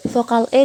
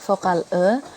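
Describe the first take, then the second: First: "E" pronounced as a clear e, not schwa; full e sound on "E"; vowel E. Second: "E" pronounced as a schwa, "uh"; second vowel E. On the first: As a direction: say the E in "Vokal E" as a full "eh". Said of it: "menarik lidah agak ke dalam". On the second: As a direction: say the E in "Vokal E" as a neutral schwa. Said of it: "menjulurkan lidah ke depan dan ke tengah". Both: Shown as a demonstration.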